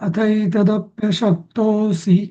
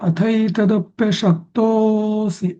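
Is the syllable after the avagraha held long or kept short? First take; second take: short; long. First: The syllable is kept to its normal length. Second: The syllable is drawn out extra long. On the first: The speaker calls it right. "एवढं ठीक आहे" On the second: The speaker calls it wrong. "एवढं लांबवायची गरज नसते"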